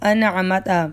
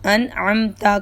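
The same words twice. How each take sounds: First: A vowel is inserted after the m. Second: The m runs straight into the t. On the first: The speaker calls it wrong. "मीम पर हरकत नहीं है" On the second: The speaker calls it right. "मीम साकिन है"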